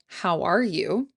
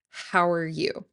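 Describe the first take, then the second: First: Each word is said separately and clearly. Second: 'How' and 'are' blend into 'hower'. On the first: "You can say each word clearly" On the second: "contract how and are into hower"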